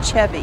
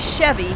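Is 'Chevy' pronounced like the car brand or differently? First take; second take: differently; car brand. First: It is pronounced differently from the car brand. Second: It is pronounced like the car brand name. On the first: It refers to the person. The speaker calls it right. "He's a person, so he's a Chevy" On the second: It refers to the car. The speaker calls it wrong. "if he was a Chevy, he'd be a car"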